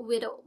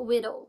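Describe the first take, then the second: No difference in how they are said.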